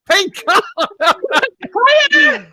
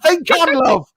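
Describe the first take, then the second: First: "Think on" stretched high, the "on" long and falling; drawn-out high warning. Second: Said in the usual way. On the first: Acted. Medium warning Julie, "Think on" stretched high. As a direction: sing "Think on" out slowly, high then falling.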